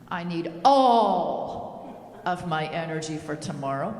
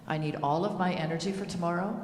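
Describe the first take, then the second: First: It is said in a harsh, commanding tone. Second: It is said in a calm, gentle tone. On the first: "I sound like the army drill sergeant cracking the whip" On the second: "that was pretty calm in my tone"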